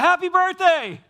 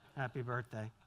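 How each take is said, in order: First: It is said warmly, with lively energy and feeling. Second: It is said flatly, without energy or feeling. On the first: The speaker truly means the greeting. The speaker calls it right. "wouldn't you rather have the happy birthday" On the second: The greeting is given only out of obligation. The speaker calls it wrong. "I guess it counts"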